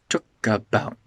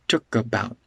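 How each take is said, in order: No difference in how they are said.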